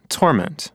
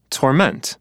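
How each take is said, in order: First: Torment said TORment, stress on TOR; noun stress. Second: Torment said torMENT, stress on MENT; verb stress. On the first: Teacher teasing Marta, noun stress. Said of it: "The noun torment". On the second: Teacher teasing Marta, verb stress. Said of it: "the verb torment". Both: Shown as a demonstration.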